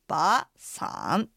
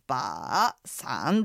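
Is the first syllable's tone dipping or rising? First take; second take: rising; dipping. First: The first syllable has a rising second tone. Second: The first syllable has a low dipping third tone. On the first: The speaker calls it right. "二三なのでばーさんというふうになります" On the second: The speaker calls it wrong. "ばーさんではなくて"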